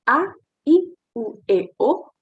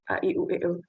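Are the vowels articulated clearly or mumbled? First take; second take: clearly; mumbled. First: The vowels are articulated clearly with open mouth. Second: The vowels are mumbled with little mouth opening. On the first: The speaker calls it right. "harus jelas" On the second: The speaker calls it wrong. "bukan A, I, U, E, O gitu"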